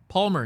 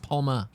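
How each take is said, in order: First: The name ends with an r sound. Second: The name ends with a plain vowel. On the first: The speaker calls it wrong. "not an Arnold Palmer" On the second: The speaker calls it right. "It's Palma"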